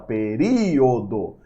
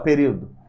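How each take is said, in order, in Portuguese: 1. O som final O é claramente pronunciado. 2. O som final O é omitido ou reduzido. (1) "você fala período, esse O é pronunciado" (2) "você não fala período"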